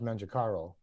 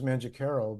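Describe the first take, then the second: First: The name is said in an Italian way. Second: The name is said in an Americanized way. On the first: This is how it is said in Italy. "in Italy, they it's pronounced" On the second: This is how the family said it growing up. "growing up, it was"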